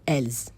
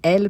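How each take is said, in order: First: The word ends with an audible S sound. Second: The word ends without an S sound. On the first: The speaker calls it wrong. "Do not say ... elles. That would be incorrect" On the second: The speaker calls it right. "and elle, plural"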